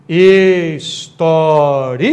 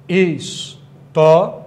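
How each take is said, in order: First: "História" split very slowly into "his-tó-ri-a", breaking the diphthong into a hiatus; teacher stretches "História" out, separating "ri" and "a"; read as proparoxytone. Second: "História" drawn out slowly, ending "-ria" glided together as one diphthong syllable; teacher slows "História" to keep "-ria" as one syllable; read as paroxytone. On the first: Teacher showing exam students the hiatus reading, very slowly. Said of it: "eu posso pronunciar de outra forma". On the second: Teacher showing exam students the paroxytone reading, slowly. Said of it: "Aqui eu tenho um ditongo".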